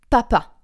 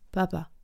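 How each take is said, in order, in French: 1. Les sons p éclatent fortement et nettement. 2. Les sons p sont doux et faiblement articulés. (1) "quelque chose qui va être efficace et papa. Quelque chose comme si ça explosait" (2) "et pas papa. ... c'est pas explosif ... ça manque d'articulation"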